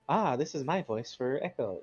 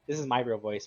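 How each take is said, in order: First: It is said in a slightly changed character voice. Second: It is said in the speaker's natural voice.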